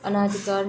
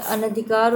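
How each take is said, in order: First: "अनाधिकार" with long naa; wrong form demonstrated. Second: "अनधिकार" with short na; correct form demonstrated. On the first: Teacher rejecting misspelling, "अनाधिकार" with stretched second vowel. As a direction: say "अनाधिकार" as a-naa-dhi-kaar. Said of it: "नहीं होता है". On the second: Teacher giving right spelling, "अनधिकार" with short second vowel. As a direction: say "अनधिकार" as a-na-dhi-kaar. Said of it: "होता है". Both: Shown as a demonstration.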